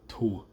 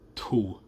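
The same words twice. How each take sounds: First: The word is said with a breathy release. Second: The word is said with a breathy release.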